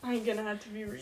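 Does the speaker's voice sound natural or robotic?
natural. The voice sounds relaxed, casual and natural.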